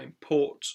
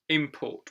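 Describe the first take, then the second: First: The stress is on the second syllable. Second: The stress is on the first syllable. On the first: It is used as a verb. "when it's in its verb form, then it usually goes on the second syllable" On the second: It is used as a noun. "in the noun word, then the syllable usually is stressed, the first one"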